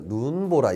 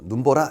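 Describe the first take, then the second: First: The first syllable's vowel is long. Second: The first syllable's vowel is short. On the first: The speaker calls it right. "첫 음절에서는 길게 발음하고요" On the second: The speaker calls it wrong. "이게 아니라"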